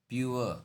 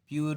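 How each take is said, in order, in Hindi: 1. शब्द का अंत uh ध्वनि से होता है। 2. शब्द का अंत r ध्वनि से होता है। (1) "लास्ट पे जो अ लगता है" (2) "प्यूर नहीं है"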